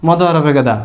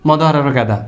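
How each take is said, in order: The two takes are said the same way.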